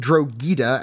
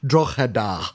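First: The name is said in the mangled, non-local way. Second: The name is said in the local Irish way. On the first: This is how a foreign series mispronounced it. The speaker calls it wrong. "Being pronounced Drogheda" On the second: This is how the name should be said. The speaker calls it right. "and not Drogheda"

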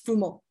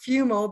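First: The name is said with an Italian pronunciation. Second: The name is said with an English pronunciation. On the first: "but in Italian, it's Fumo" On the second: "Most English people pronounce it Fumo"

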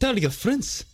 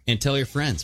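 First: It is said in a put-on Russian accent. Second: It is said in his normal accent.

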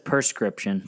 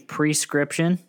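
First: The word is pronounced in a common local way. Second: The word is pronounced just as it is spelled. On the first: This is how most people around there say it. The speaker calls it wrong. "Everybody says prescription, at least in Utah" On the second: This is the proper pronunciation. The speaker calls it right. "It's supposed to be prescription"

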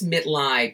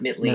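First: The name is pronounced the German way. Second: The name is pronounced the English way. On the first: The speaker calls it right. "It's Mitlead" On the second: The speaker calls it wrong. "not Mitlead. ... The way most people say it if they don't know German"

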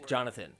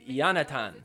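First: The name starts with a J sound. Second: The name starts with a Y sound. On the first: This is how people actually say the name. "I guess that is how you say his name is Jonathan" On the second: This is how the spelling suggests the name is said. "I would think it's Yonatan. Which sounds way more fun"

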